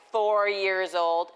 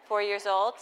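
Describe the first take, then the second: First: Slow, stretched and louder; exaggerated slow, louder emphasis; drawn out slowly. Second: Said in the usual way. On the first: Shown as a demonstration. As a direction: drag the words out for effect. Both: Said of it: "I don't say it like that".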